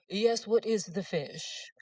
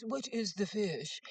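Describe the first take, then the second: First: Slow, haughty put-on question; snobbish jerk. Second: Slow, drawn-out haughty question; snobbish jerk. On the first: To the waitress, slow and haughty snob voice. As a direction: drag it out like a snob talking down. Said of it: "Now, I was being a jerk". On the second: Retold or imitated. To the waitress, drawn-out snooty question. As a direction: ask it slowly to make her squirm. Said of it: "trying to humiliate the waitress".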